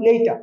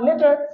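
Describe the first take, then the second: First: The first vowel glides like 'ay'. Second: The first vowel is a plain short 'e'. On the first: The speaker calls it right. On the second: The speaker calls it wrong.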